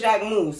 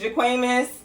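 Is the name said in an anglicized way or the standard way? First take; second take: standard; anglicized. First: The name is said in its standard French way. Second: The name is said in a playful anglicized way. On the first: The speaker calls it right. "we know it's Jacquemus" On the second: The speaker calls it wrong. "I'm gonna say it wrong every time"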